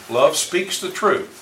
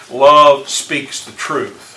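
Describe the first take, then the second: First: Said in the usual way. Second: Each word drawn out and louder, leaning on Love; slow emphatic quote. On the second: Shown as a demonstration. Teacher reading the verse to the class, slow and emphatic. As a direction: read "Love speaks the truth" very slowly, pressing every word.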